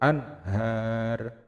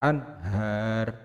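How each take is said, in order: The two takes are said the same way.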